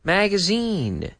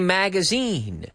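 First: The last syllable rhymes with 'seen'. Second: The same.

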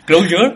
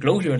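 First: The word is pronounced literally as it is spelled. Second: The word is pronounced like the English word closure. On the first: "yo lo pronuncio literalmente como se escribe" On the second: "con la gente que hablo me parece que dicen Closure"

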